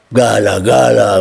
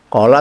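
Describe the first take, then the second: First: The word begins with a hard g sound. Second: The word begins with a deep q sound.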